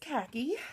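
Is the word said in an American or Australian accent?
American. It is said in an American accent.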